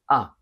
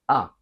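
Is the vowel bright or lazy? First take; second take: bright; bright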